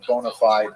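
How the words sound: It is pronounced the American way. "as that's how Americans say it"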